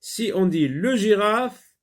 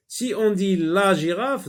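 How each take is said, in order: First: Le said high and louder in le girafe; stressed article. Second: La said high and louder in la girafe; stressed article. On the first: Teacher contrasting le and la for the pupil. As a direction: lift le clearly in "le girafe". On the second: Teacher contrasting la and le for the pupil. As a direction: lift la clearly in "la girafe". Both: Shown as a demonstration. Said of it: "la girafe ou le girafe".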